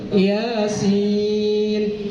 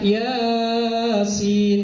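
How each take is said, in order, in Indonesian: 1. Suku kata pertama pendek, yang kedua panjang. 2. Suku kata pertama panjang, yang kedua pendek. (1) "yang benar adalah" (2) "Ianya kadang panjang, sinnya pendek"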